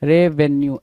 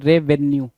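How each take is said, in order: Both takes have the same delivery.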